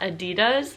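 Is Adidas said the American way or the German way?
American. The brand name is said the American way. "and not Adidas, so that's the American take on it"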